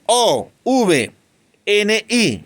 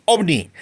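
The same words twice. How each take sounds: First: "O V N I" spelled out, each letter named apart; name each letter of "O V N I" separately. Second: "ovni" said as one single word. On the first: Teacher showing the wrong, letter-by-letter reading. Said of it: "Yo no digo". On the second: Teacher giving the class the right reading as one word. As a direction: read "ovni" as a whole word. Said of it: "No, yo digo ovni". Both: Shown as a demonstration.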